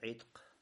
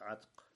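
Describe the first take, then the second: First: The first vowel is an 'i' sound. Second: The first vowel is an 'a' sound. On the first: "с кесрой" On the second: "с фатхой"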